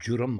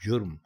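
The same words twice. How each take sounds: First: A vowel is heard between r and m. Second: No vowel is heard between r and m. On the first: The speaker calls it wrong. "जुर्म गलत है" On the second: The speaker calls it right. "जुर्म दुरुस्त है"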